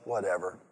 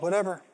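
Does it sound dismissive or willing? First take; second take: dismissive; willing. First: It sounds dismissive and disrespectful. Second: It sounds willing and eager.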